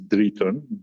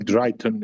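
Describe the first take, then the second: First: The name is pronounced the native way. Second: The name is pronounced the English way. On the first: This is the name's true pronunciation. "the real uh, pronunciation is Drayton" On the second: This is how English speakers usually say it. "Drayton is usually English uh, pronunciation"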